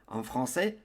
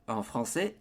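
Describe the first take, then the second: The two takes are said the same way.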